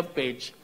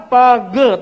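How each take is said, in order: First: "page" as one syllable, "payj"; correct English reading. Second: "Page" as loud "pah-guh", two syllables; misread by spelling. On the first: Father giving the proper reading, English "page". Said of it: "Gak tahu bacanya page". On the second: Child reading P A G E, "Page" misread as "pah-guh". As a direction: sound out "Page" Indonesian-style, loud and higher. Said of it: "bacanya apa?". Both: Retold or imitated.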